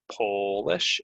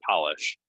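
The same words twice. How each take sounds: First: "Polish" with a long oh; Polish from Poland. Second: "polish" with an open ah; polish for nails. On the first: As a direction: say "Polish" as POH-lish. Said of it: "meaning coming from the country of Poland". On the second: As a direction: say "polish" as PAH-lish. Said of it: "what you put on your nails". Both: Shown as a demonstration.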